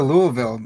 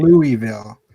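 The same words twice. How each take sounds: First: "Louisville" slurred the local way, as LOO-vul; local pronunciation. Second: "Louisville" said clearly as LOO-ee-vil; outsider pronunciation. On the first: Approving the guest's way of saying it, local LOO-vul for "Louisville". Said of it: "We got the Louisville pronunciation down". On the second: Showing how not to say it, "Louisville" as LOO-ee-vil. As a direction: sound out all three syllables of "Louisville", LOO-ee-vil. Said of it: "You know, it's not". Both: Shown as a demonstration.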